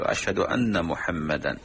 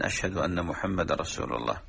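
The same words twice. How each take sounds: First: "محمدا" ending with a clear muhammadan; correct tanwin. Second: "محمد" ending on a silent d, muhammad; dropped tanwin. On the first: Teacher giving the correct ending of the shahada. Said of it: "أن تقول". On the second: Teacher showing the missing tanwin error. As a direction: stop "محمد" with a still dal. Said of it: "ترك التنوين في حرف الدال". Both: Shown as a demonstration.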